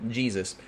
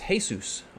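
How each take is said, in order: First: The name is pronounced the English way. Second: The name is pronounced the Spanish way.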